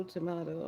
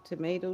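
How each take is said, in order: First: "tomato" as to-MAH-to; broad A, to-MAH-to. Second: "Tomato" as to-MAY-to; long A, to-MAY-to. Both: Shown as a demonstration. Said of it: "What are you saying now?".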